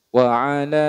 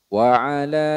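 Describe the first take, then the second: No difference in how they are said.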